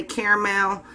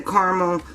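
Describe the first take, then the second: First: "caramel" with first vowel as in care, ending in mel; "caramel" pronounced CARE-mel; two-syllable caramel. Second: "caramel" with first vowel as in car; "caramel" pronounced CAR-muhl, open first vowel; car-mel pronunciation. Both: Shown as a demonstration. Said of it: "Some people say caramel".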